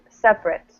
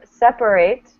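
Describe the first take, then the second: First: The syllables are mushed, ending like 'it'. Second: The last syllable is full, like 'ate'. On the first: It is the adjective. "adjective, ... we kind of mush everything together" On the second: It is the verb. "So verb"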